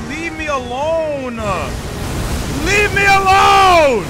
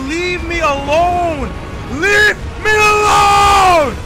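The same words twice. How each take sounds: The two takes are said the same way.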